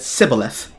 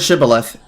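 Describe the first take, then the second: First: The word begins with an 's' sound. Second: The word begins with a 'sh' sound. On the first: The speaker calls it wrong. "they instead said sibboleth" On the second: The speaker calls it right. "when they pronounced the word shibboleth"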